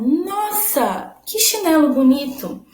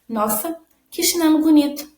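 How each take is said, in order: First: It is read with lively, exclamatory emotion. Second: It is read flatly, without exclamatory emotion. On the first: The speaker calls it right. "Agora com a exclamação" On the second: The speaker calls it wrong. "sem o ponto de interrogação, elas não teriam essa entonação"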